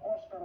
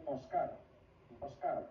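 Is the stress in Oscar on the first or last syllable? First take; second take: first; last. First: The stress is on the first syllable. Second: The stress is on the last syllable. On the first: The speaker calls it wrong. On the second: The speaker calls it right.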